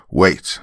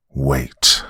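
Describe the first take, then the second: First: Abrupt "wait" with rising end; mild shout to halt everyone. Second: Low, forceful "Wait"; angry snarl. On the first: Man halting the room, shouting wait. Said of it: "I shouted". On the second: Man cutting off the father, angry snarl. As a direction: snarl "Wait" as a stern command. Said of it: "I snarled in anger". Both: A narrator's reading.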